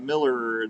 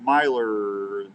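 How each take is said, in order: First: The first vowel sounds like in 'mill'. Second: The first vowel sounds like in 'my'. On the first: The speaker calls it wrong. "I was calling him Miller. It's not Miller" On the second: The speaker calls it right. "It's Myler, I think"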